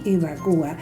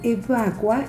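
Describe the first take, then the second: First: The stress falls on the syllable 'cu'. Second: The stress falls on the syllable 'va'. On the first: "puedo decir evacua y evacúa" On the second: "puedo decir evacua y evacúa"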